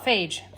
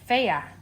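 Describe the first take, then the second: First: The name is said with one syllable. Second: The name is said with two syllables. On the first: The speaker calls it wrong. "I call it phage, but it's really not" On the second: The speaker calls it right. "They say to pronounce it Freya"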